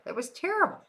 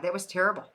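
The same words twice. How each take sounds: First: "terrible" jumps way up high at the end; incredulous high-pitched echo of "that was terrible"; high rising repeat. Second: Said in the usual way. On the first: Shown as a demonstration.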